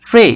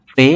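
First: ফ্রে with a puffed p, "phray"; aspirated P. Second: Said in the usual way. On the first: Shown as a demonstration. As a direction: burst air into ফ্রে. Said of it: "ফ এর মতো হবে". (ফ্রে মহাপ্রাণ ফ দিয়ে) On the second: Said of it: "পি এর উচ্চারণটা ফ".

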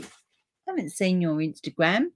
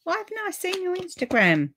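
First: Said in the usual way. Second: Much higher, puzzled why; surprised question. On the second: Real, not acted. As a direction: exclaim at her own oversight. Surprised at herself.

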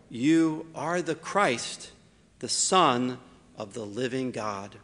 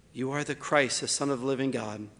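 First: Slow, weighty declaration with a long hold on "You"; solemn proclamation. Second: Said in the usual way. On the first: Shown as a demonstration. Preacher voicing Simon's confession, slow and solemn. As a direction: draw out "You are the Christ" slowly, each word weighed. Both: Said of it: "something that is so powerful".

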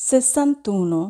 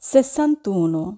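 No difference in how they are said.

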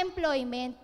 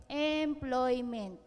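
First: Said in the usual way. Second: Employment drawn out long, each syllable slow; stretched out slowly. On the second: Shown as a demonstration. Speaker stretching Employment for the class while spelling, slowly drawn out. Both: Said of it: "habaan natin".

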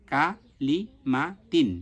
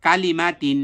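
First: কা, লি, মা, তিন each set apart; syllable by syllable. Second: কালিমা তিন louder, run together as one word; joined together. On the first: Teacher drills the syllables before joining, spaced apart. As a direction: spell out কা লি মা তিন piece by piece. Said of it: "একসাথে ভালোভাবে উচ্চারণ করব". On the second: Teacher reads the drilled syllables together, joined up. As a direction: read কালিমা তিন firmly without gaps. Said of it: "এরপরে". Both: Shown as a demonstration.

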